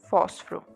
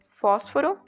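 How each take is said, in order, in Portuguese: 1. A palavra é falada com duas sílabas. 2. A palavra é falada com três sílabas.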